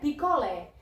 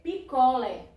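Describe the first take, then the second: First: The final vowel is said open. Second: The final vowel is said plain, not open. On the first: "Ela vai ter o som aberto" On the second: "Se você não bota o acento, você lê picolé, é normal"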